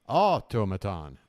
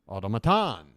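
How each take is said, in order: First: The stress is on the first syllable. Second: The stress is on the fourth syllable. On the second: "or four?"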